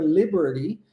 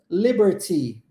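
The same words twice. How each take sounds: First: The t is said as a quick r-like flap. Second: The t is left out completely. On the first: "O T do Liberty pode ser transformado em R" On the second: "ou pode ser omitido"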